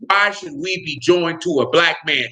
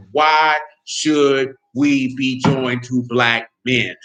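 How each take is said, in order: First: Slowed, quoted question; quoted question at a measured pace; quoting her. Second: Very slow, low, drawn-out mock quote; mocking her question at a crawl; mocking drawl. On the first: Retold or imitated. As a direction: read her words back dryly. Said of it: "one of those women said point blank". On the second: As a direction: stretch her words out to ridicule them. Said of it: "you go look at that woman said".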